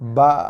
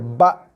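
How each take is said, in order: First: The final stop is weak and breathy. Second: The final stop is firm and cut off. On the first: The speaker calls it wrong. "bunyi Hamzahnya lemau, masuk angin, tak solid, tak keras" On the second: The speaker calls it right. "So bila baris mati, stopkan dia. ... macam tu"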